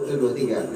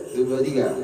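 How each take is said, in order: Both takes have the same delivery.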